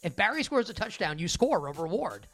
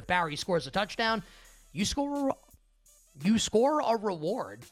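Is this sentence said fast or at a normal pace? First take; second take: fast; normal. First: The sentence is said quickly, like a tongue twister. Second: The sentence is said at a normal pace.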